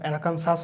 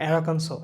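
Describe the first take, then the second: First: The word ends with a pronounced s sound. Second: The word ends without a final s sound. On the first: The speaker calls it wrong. "অ্যারাকানসাস হচ্ছে না" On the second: The speaker calls it right. "এখানে এস উচ্চারণটা হচ্ছে না"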